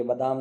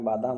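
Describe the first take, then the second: First: "बादाम" with a short first vowel, "badaam"; wrong pronunciation. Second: "बादाम" with a long first vowel, "baadaam"; correct pronunciation. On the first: Teacher shows students the wrong word, short first vowel. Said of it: "ये बादाम नहीं होता है". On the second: Teacher corrects the spelling for students, long first vowel. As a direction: give "बादाम" a full long "baa" at the start. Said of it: "बादाम होता है". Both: Shown as a demonstration.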